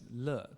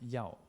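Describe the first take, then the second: First: The syllable is said as le. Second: The syllable is said as yao. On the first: This is the present-day reading. "we read as 乐 today" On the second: This is the reading used in the past. "used to be read as 要"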